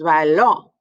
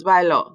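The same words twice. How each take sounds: First: Bailó stressed on its last syllable, LÓ; bailó as bai-LÓ, weight landing on the ending; stress on final O. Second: Bailó stressed on BAI, the ending unaccented; bailó with the weight on its first syllable; present-tense bailó, first-syllable stress. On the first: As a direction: punch the accented ó at the end of bailó. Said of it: "accent on the O". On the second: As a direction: say bailó as BAI-lo, falling away on the end. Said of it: "it gets confused with the present tense". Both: Shown as a demonstration.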